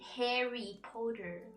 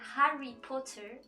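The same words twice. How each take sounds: First: It is said with an American accent. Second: It is said with a British accent. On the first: "in American English, they say" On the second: "in British accent, they say"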